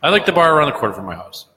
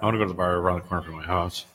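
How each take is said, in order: First: Higher, quick, clear restatement; clearly spoken. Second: Low, quick, soft mumble; muttered. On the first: Host repeating himself after being told he muttered, speaking up clearly. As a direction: say it up and out so nobody misses it. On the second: Host telling co-host where he wants to go, muttered. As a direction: mutter it fast under your breath. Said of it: "You muttered that". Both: Real, not acted.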